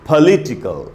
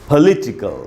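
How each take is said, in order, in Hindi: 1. Stress दूसरे शब्दांश पर है। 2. स्ट्रेस दूसरे शब्दांश पर है।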